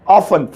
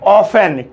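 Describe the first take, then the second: First: The t is silent; second syllable is 'fun'. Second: The t is silent; second syllable is 'fen'. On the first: The speaker calls it right. "इसे बोलिए ऑफन" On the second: The speaker calls it wrong. "T silent है"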